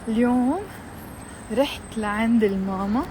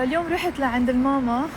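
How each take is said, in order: First: The sentence is spoken slowly and clearly. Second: The sentence is spoken quickly and runs together. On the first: A learner has time to repeat it. "you have time to repeat after me" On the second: Only an advanced listener can follow it. "You might understand it if you're advanced"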